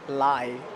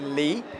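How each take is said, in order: First: The vowel sounds like 'eye'. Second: The vowel sounds like 'ee'. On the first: The speaker calls it wrong. "they would just say lie" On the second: The speaker calls it right. "my real name is actually Lee"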